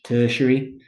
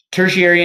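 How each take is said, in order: First: Tertiary said the British way, squeezed to TER-shree; playful British tertiary, clipped to TER-shree; British pronunciation. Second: Said in the usual way. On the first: Shown as a demonstration. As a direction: say tertiary like a Brit, TER-shree with no middle syllables. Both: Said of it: "I just kinda like to say it in the British voice".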